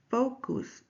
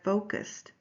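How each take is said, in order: First: "focus" with a Spanish u, final t dropped; Spanish-accented vowel. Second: Said in the usual way. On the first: Shown as a demonstration. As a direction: say "focus" as FOH-koos, no t at the end. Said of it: "Mister Canelo says the word". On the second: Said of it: "instead of".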